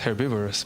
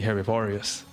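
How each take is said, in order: First: The word is said with English pronunciation. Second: The word is said with Spanish-style pronunciation. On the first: "In English it's herbivorous" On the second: "in Spanish it'll be herbivorous"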